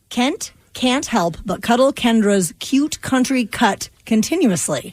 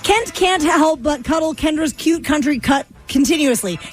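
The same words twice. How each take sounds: First: It is said slowly. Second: It is said fast.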